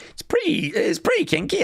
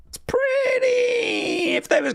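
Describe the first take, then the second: First: Breathy whispered aside; teasing whisper. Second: Squealed mock outburst. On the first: Acted. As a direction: lean in and whisper it. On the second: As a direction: blurt it as a shrieking tease. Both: Teasing about kinky Mountie.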